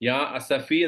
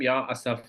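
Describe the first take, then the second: First: The last word ends in an 'ee' vowel. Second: The last word ends in an 'ah' vowel. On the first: It is the ordinary form meaning 'my sorrow'. "ഈ എന്ന് പറയുന്നതിന് പകരം" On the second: It expresses grief at its most extreme. "ആ എന്ന് പറയും"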